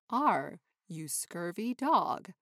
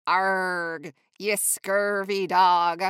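First: Said in the usual way. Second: Louder pirate growl with a rolled R. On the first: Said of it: "So instead of". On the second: Shown as a demonstration. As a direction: say Arg like a salty pirate. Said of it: "I like to add extra R and a little E".

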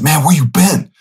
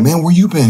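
First: Much higher, delighted call; dad thrilled to hear from his son; dad excited. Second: Much higher, echoing delight; son excited. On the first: Dad in the dream greeting his son, high and excited. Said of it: "And he said". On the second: Son answering his dad in the dream, high and excited. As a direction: throw the greeting back just as thrilled. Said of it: "And I'm like". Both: Retold or imitated.

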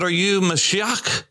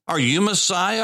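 First: Mashiach said the Hebrew way, muh-SHEE-ahk; Hebrew pronunciation. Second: Said in the usual way. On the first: Shown as a demonstration. People asking John the Baptist, Mashiach pronounced in Hebrew. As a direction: give Mashiach its Hebrew sounds, ending in a throaty k.

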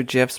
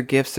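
First: "gifs" with a soft G; "gifs" pronounced like "jifs". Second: "gifs" with a hard G; "gifs" opening on a hard g as in "go". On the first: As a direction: say "gifs" starting with a J sound. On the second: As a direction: say "gifs" starting like "gift". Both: Shown as a demonstration. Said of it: "I don't know if they're gifs or gifs".

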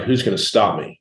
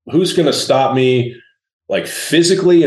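First: Said in the usual way. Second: "who's" punched higher and louder, "physically" leaping up; a challenge thrown out louder on the repeat; defiant emphasis. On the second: Shown as a demonstration. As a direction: lean hard into "who's" and lift "physically".

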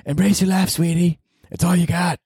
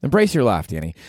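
First: Put-on high falsetto girlfriend voice; girlfriend impression. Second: Said in the usual way. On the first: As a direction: coo it in a much higher, put-on voice. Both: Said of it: "That was my girlfriend".

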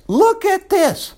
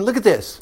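First: "look at this" much higher and slow; slow, high, insistent "look at this"; drawn-out emphasis. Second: Said in the usual way. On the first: Shown as a demonstration.

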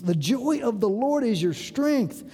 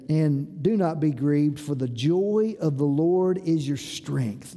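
First: "joy" lifted in an emphatic restatement; emphatic repeat. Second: Slow, low-pitched scripture reading; low, measured reading. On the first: Preacher repeats the verse to drive it home, emphatically. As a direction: drive home "joy" and "strength" with a livelier pitch. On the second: Preacher reads the verse to congregation, low and measured. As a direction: read the verse low and unhurried. Verse read, then repeated for emphasis. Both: Acted.

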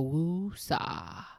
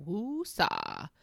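First: Drawn-out woosah, letting the air go; slow woosah exhale. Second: Put-on woosah said flatly straight at the teenager; a calm, knowing woosah, ending on a fall; woosah to a teen. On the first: Shown as a demonstration. Coach showing parents how to woosah, slow. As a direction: stretch woosah out slowly on one long calming breath. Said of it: "the first thing I wanna say is woosah". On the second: Mom answering a teen's attitude with a woosah. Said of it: "I go".

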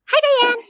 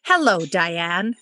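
First: Bright, high-pitched "Hi, Diane"; high sing-song greeting. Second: Said in the usual way. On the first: Shown as a demonstration. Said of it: "I always say". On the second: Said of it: "never the way that I address her".

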